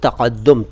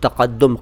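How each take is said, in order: No difference in how they are said.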